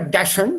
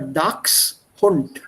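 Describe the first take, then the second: First: The word gets a common anglicized pronunciation. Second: The word gets its original German pronunciation. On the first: The speaker calls it wrong. "People here mispronounce it as Dachshund. It's not a Dachshund" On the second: The speaker calls it right. "but it's a Dachshund"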